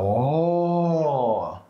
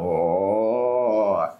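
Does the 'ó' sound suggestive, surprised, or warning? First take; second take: surprised; suggestive. First: It sounds like a surprised exclamation. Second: It sounds like a suggestive, teasing remark.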